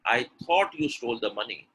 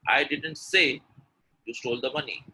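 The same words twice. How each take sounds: First: "thought" picked out, the rest falling; weight on "thought" as the contrast; stress on thought. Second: Emphatic "say" set apart; stress on say. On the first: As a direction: lean on "thought". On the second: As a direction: lean on "say", drop the rest. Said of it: "when I'm stressing on say". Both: Shown as a demonstration.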